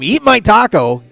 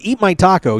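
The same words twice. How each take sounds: First: It is screamed loudly. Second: It is said at normal volume. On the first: "If you scream" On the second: "you start with"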